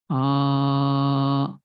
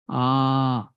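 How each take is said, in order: First: The vowel is drawn out very long. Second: The vowel is held about twice as long. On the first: "more than two unit of time, then it becomes pluta. ... long time" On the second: "if you use two unit of time"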